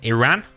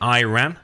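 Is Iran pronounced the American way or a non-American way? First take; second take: non-American; American. First: It is said with a non-American pronunciation. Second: It is said with an American pronunciation.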